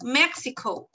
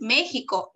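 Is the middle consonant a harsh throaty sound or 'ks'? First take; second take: ks; throaty. First: The middle consonant is a 'ks' sound. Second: The middle consonant is a harsh throaty sound. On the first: The speaker calls it right. "it's Mexico" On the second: The speaker calls it wrong. "here no es México"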